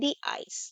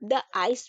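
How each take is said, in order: First: 'The' is said with a long 'ee' vowel. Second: 'The' is said with a short 'uh' vowel. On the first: "वो दी पढ़ते हैं" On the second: "द ice भी पढ़िए, ये भी right है"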